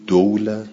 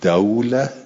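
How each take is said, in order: First: The first vowel is u, as in dulah. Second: The first vowel is a, as in dawlah. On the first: It means wealth or rule passing between hands. "بقیل از زم و فی المال ... دوله یعنی ثروت" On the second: It means victory in war passing between sides. "و الفتح و فی الحرب ... دوله یعنی تو جنگ یه روز شما پیروزید"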